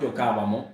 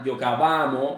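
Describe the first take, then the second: First: The stress falls on the syllable ca. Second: The stress falls on the syllable va. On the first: The speaker calls it wrong. "no en la primera, no giocavamo, está mal" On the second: The speaker calls it right. "el acento es en la última A"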